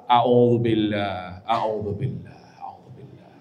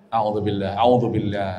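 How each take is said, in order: First: Slow a'udzubillah fading to a whisper; fading repetition. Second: Low soft murmured a'udzubillah, over and over; soft repeated murmur. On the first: Preacher demonstrating calming prayer, fading to whisper. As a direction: let each a'udzubillah sink softer until it's gone. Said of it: "berulang-ulang". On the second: Preacher showing wife how to pray softly, low murmur. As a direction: murmur a'udzubillah gently to yourself. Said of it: "jangan dengan suara ker". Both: Shown as a demonstration.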